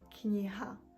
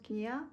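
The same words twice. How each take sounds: First: The h sound is clearly pronounced. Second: The h sound is left out. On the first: The speaker calls it right. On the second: The speaker calls it wrong.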